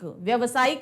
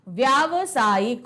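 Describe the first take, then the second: First: The vowel after 'vy' is short. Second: The vowel after 'vy' is long. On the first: The speaker calls it wrong. "व्यवसायिक नहीं होता" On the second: The speaker calls it right. "व्यावसायिक होता है"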